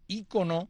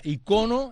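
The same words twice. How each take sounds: First: The stress is on the first syllable. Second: The stress is on the second syllable. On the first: This is the form used in Latin America. "con acento en Hispanoamérica" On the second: This is the form used in Spain. "Ícono en España"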